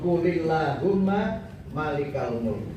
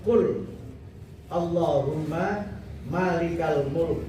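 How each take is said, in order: First: Qul runs into Allahumma with a linking vowel. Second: Qul and Allahumma are said as separate words. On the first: "Kalau dibaca wasol" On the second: "kalau kita baca dengan apa tidak wasol"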